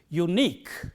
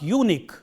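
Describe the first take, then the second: First: The stress is on the last syllable. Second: The stress is on the first syllable. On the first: The speaker calls it right. "The stress is on the last syllable in words like this" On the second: The speaker calls it wrong. "It is not unique"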